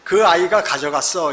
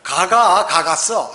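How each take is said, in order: First: The sentence is said in full standard form. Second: The sentence is contracted to 'gaga gagatsseo'.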